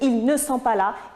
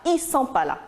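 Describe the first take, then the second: First: Every word is pronounced fully, including ne. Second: Ne is dropped and ils is reduced. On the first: This is the standard form. "Au lieu de dire" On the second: This is informal, familiar speech. "avec l'absence, bien sûr, de l'adverbe de négation ne"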